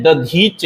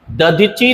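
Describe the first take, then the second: First: दधीच closing on ch, da-dheech; correct pronunciation. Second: दधीची with an ee on the end, da-dhee-chee; wrong pronunciation. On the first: Teacher naming the sage rightly, दधीच said as da-dheech. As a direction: stop दधीच on the consonant. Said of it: "ऋषि का नाम है ना दधीच". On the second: Teacher showing the mistake, दधीची said ending in chee. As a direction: finish दधीची on a vowel. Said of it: "नहीं है". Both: Shown as a demonstration.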